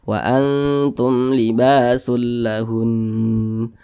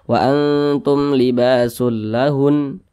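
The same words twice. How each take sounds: First: The final nasal sound is held longer. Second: The final nasal sound is cut short. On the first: The speaker calls it right. "Makanya kita panjangkan sejenak seperti itu" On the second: The speaker calls it wrong. "itu kurang tepat. Nah, gunnahnya itu kurang"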